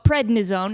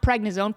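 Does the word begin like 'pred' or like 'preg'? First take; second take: pred; preg. First: The first syllable sounds like 'pred'. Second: The first syllable sounds like 'preg'. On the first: The speaker calls it right. "first of all, it's prednisone" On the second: The speaker calls it wrong. "It's not prednisone. Please stop saying that"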